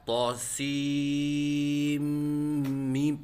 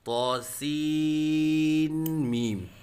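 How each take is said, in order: First: The n merges into the m, no n heard. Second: A separate n is sounded before the m. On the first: The speaker calls it right. "सीन के आखिर में नून का मीम में इदगाम हुआ है" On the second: The speaker calls it wrong. "न कि"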